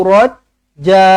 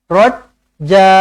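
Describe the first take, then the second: The two takes are said the same way.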